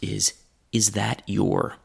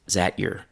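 First: Every word is said fully and clearly. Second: "Is that" merges into one syllable, "zat". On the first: "That group of words is that your?" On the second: "So still less formal is zat your"

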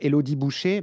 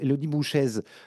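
First: The surname ends in a bare vowel. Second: The surname ends in a z sound. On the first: This is how the others have been saying it. "vous dites à cette pauvre Élodie Boucher" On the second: This is how the speaker has always said it. "moi, j'ai toujours prononcé Élodie Bouchaise"

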